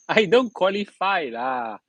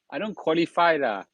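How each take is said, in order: First: Chuckling Singlish brush-off; laughing. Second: Said in the usual way. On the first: Real, not acted. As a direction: laugh it off, slow and amused. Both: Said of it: "A joker some more".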